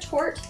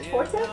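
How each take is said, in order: First: The final e is silent. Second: The final e is pronounced.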